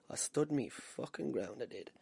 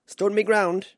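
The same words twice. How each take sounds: First: Slow, quiet, dropping away at the end; emphatic repeat. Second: Loud, high, punched out; proud boast. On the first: Amateur boxer insisting on his courage, slow and quiet. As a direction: repeat it softly and deliberately. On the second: Amateur boxer boasting after facing a champion, loud and proud. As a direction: declare it boldly. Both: Real, not acted.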